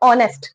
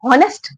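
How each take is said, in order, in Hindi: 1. शब्द स्वर की ध्वनि से शुरू होता है। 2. शब्द 'h' ध्वनि से शुरू होता है। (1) "स्वर की आवाज आ रही है ओ की" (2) "हॉनेस्ट नहीं बोलते हम"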